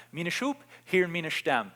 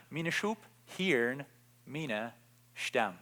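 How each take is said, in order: First: Said in the usual way. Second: Preacher softly repeating Jesus to the congregation, slowed and hushed. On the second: Shown as a demonstration. Third repetition, dropping soft.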